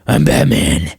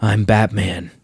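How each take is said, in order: First: Very low, overdone Batman voice; mocking the overdone Batman rasp; exaggerated Batman growl. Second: Low, growled I'm Batman; hammed-up Batman growl; gravelly Batman voice. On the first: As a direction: push the Batman growl way too far. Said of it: "It doesn't have to be". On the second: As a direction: drop into a deep mock Batman rasp. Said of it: "your Batman voice can be".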